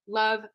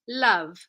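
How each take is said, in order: First: The L is short and quickly released. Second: The L is held slightly longer. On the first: "we have this push off at the beginnings of words" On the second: "a little bit of lingering on that L sound"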